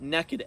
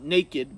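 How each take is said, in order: First: The first vowel sounds like the one in 'neck'. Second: The first vowel sounds like the one in 'name'. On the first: The speaker calls it right. "but Nekid. N E K K I D" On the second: The speaker calls it wrong. "not naked"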